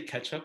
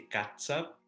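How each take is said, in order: First: The middle consonant sounds like 'ch'. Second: The middle consonant sounds like 'ts'. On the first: This is the regular English way. "we don't say ketchup" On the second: This is how it is said in Tagalog. "we say catsup"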